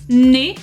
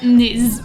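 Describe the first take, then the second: First: The final z is silent. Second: The final z is pronounced. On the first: The speaker calls it right. "you're not going to pronounce it either" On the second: The speaker calls it wrong. "and not"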